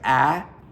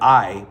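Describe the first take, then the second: First: The vowel is a flat southern 'ah'. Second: The vowel glides like standard 'eye'. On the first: "but it's like ah" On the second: "it's like I"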